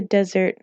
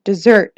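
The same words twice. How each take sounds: First: Desert, said as DEH-zert like sand; desert with stress on the first syllable, DEH-zert; desert pronounced DEH-zert before the self-correction. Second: Dessert, said as dih-ZERT like pudding; dessert with stress on the second syllable, dih-ZERT; dessert corrected to dih-ZERT, louder and with a laugh. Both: Shown as a demonstration.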